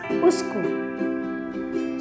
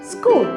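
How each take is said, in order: First: An extra vowel comes before the sk sound. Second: The word begins directly with the s sound. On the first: The speaker calls it wrong. "we pronounce the word school as uskul" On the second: The speaker calls it right. "just say school"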